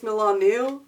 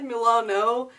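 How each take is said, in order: First: The name ends with an 'oo' vowel. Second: The name ends with an 'oh' vowel. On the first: This is the technically correct form. The speaker calls it right. "technically it's Milanu" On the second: This is how the speaker has always said it. The speaker calls it wrong. "I've always said Milano"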